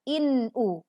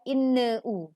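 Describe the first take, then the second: First: The n runs straight into the u. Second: An extra vowel is added after the n. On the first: The speaker calls it right. "pastikan bacaannya jelas, tidak memantul" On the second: The speaker calls it wrong. "bukan inne u"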